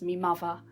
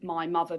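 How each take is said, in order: First: It is said in a Cockney accent. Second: It is said in a standard English accent.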